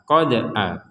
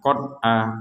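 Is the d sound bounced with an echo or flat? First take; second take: bounced; flat. First: The d is released with an echoing bounce. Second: The d stops flat with no echoing bounce. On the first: The speaker calls it right. "Jadi harus ada pantulan" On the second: The speaker calls it wrong. "itu enggak ada pantulan sama sekali"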